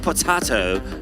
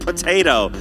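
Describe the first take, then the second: First: It is said in a British accent. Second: It is said in an American accent.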